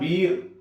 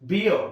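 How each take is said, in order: First: The vowel is one steady long ee sound. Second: The vowel glides from ee toward a schwa. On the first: The speaker calls it wrong. "It's not బీర్" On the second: The speaker calls it right. "It's బియర్"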